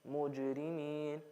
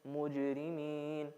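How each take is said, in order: Both takes have the same delivery.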